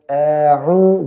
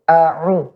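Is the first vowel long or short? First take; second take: long; short. First: The first vowel is drawn out long. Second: The first vowel is short and moves straight on. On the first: The speaker calls it wrong. "jangan a'u gitu" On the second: The speaker calls it right.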